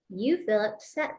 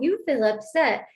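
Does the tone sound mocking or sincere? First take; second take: sincere; mocking. First: It is said in a plain, sincere tone. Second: It is said in a mocking, dismissive tone. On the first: The listener's feeling is taken seriously. The speaker calls it right. "How about word for word" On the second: The listener's feeling is brushed off. The speaker calls it wrong. "you're not going to say it in the tone I'm saying it"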